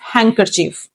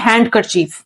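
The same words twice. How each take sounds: First: The d is silent. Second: The d is sounded. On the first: The speaker calls it right. "डी जो है silent होता है" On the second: The speaker calls it wrong. "That is absolutely wrong"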